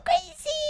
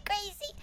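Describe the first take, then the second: First: High squeal. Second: Soft rising whisper. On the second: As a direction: breathe the word crazy. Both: Shown as a demonstration. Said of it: "one of my A S M R voices".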